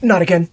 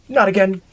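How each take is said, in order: First: Loud frustrated cry; exasperated shout. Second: Exasperated shout. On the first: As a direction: yell it out in exasperation. Game setback, exasperated outburst. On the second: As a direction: shout it once more, fed up. Repeated outburst. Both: Real, not acted.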